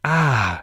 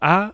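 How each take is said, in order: First: The vowel is said in a breathy voice. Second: The vowel is said in a plain voice. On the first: "breathy voice" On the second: "Normal A, which linguists call modal voice"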